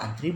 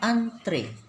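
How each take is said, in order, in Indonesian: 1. Kata ini berakhir dengan bunyi i. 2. Kata ini berakhir dengan bunyi e. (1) "antri bukan kata baku" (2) "Kata bakunya adalah antre"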